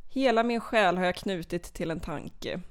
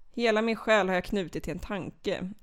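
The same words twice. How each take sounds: The two takes are said the same way.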